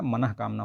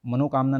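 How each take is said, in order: First: Teacher gives मनः कामना as the correct form; correct form shown. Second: मनोकामना with ओ, stressed and a bit louder as the mistake; teacher shows मनोकामना as the wrong form; wrong form shown. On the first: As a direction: say मनः कामना gently, sounding the visarga as ह. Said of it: "मनोकामना नहीं होता". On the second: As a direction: say मनोकामना firmly, marking the ओ as wrong. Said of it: "मनः कामना होता है". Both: Shown as a demonstration.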